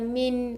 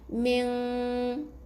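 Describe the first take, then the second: First: The ending is a clearly sounded n. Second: The ending is a nasal hum, no clear n. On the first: The speaker calls it wrong. "bukan min" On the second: The speaker calls it right. "jangan bunyikan N"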